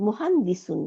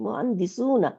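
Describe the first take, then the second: First: মুহান্দিসুন said without the final a, ending on n; mistaken form. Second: মুহান্দিসুনা with the full ending na said clearly; corrected form. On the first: Teacher slips, saying মুহান্দিসুন with no final a. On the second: Teacher corrects herself to মুহান্দিসুনা, full na ending. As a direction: fix the word to মুহান্দিসুনা, adding the final na. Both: Shown as a demonstration. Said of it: "sorry, মুহান্দিসুনা".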